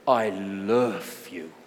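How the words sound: It sounds warm and loving, like the Spanish friend.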